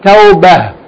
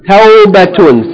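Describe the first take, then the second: First: The word ends with a soft h sound. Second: The word ends with a t sound and -un. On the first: The reader stops on this word. "pronounce it in the pause form, which means the tamabuta is going to be pronounced like ha" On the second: The reader continues on to the next word. "We're going to pronounce the tamabuta as T"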